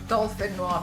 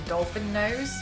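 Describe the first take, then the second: First: The word ends with a French 'nwahz' sound. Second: The word ends with an English 'nose' sound. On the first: The speaker calls it right. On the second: The speaker calls it wrong.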